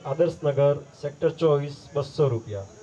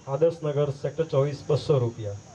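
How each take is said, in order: Both takes have the same delivery.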